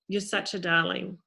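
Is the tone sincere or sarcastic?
sincere. It is said warmly and sincerely.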